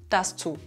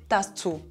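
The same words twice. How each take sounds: No difference in how they are said.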